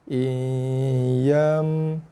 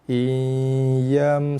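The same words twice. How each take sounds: First: The word is said very slowly, drawn out. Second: The word is said at normal speed.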